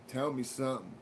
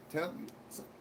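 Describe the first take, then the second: First: Said in the usual way. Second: Whispered tell me something, no voice. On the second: Acted. Whispering the request back to himself. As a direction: breathe the words out in a whisper.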